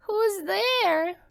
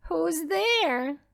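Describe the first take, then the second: First: High, frail granny; a frail old lady calling through the door; old grandmother voice. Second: Lightly high fake old lady; wolf in bed pretending to be grandmother; wolf faking granny. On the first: Grandmother answering the knock, high and frail. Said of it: "asked the grandmother". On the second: Wolf answering the knock in a mild granny voice. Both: A narrator's reading.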